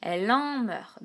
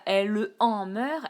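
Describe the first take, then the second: First: «elle en meurt» slow, the E of «elle» run into «en»; slow, smoothly linked «elle en meurt»; correct reading. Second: «elle en meurt» slow, with the E of «elle» sounded; slow, separated «elle en meurt»; wrong reading. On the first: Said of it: "elle dit". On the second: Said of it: "On ne dit pas". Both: Shown as a demonstration.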